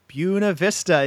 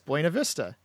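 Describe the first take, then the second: First: The name is said in its local pronunciation. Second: The name is said the way it looks spelled. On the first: The speaker calls it right. "properly pronounced Buena Vista" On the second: The speaker calls it wrong. "You might look at it and say"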